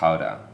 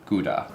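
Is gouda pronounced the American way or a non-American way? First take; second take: non-American; American. First: The word has a non-American pronunciation. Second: The word has an American pronunciation.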